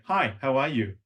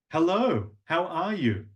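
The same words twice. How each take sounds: First: Said in the usual way. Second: Higher, lilting greeting; sing-song. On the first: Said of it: "Hear the break?". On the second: Shown as a demonstration. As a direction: draw out the words tunefully. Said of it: "I'm using longer words".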